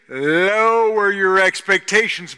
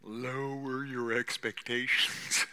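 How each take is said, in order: First: Loud, slow, higher proclamation; forceful drawn-out pulpit cry; emphatic preaching. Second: Slow, stretched-out counsel; measured, unhurried admonition; drawn-out advice. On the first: Same advice repeated at full force. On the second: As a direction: draw the words out slowly, held back. Same advice given quietly, then forcefully. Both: Real, not acted.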